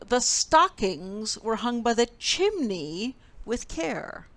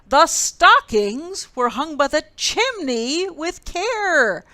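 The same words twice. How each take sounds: First: It is said at a normal, softer volume. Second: It is said more loudly.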